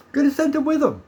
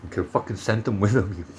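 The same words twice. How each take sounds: First: Much higher, mock squeal on the repeat; laughing high repeat. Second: Said in the usual way. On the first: Real, not acted. Vlogger repeats his own line, high mocking laugh. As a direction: fling it up high in disbelief.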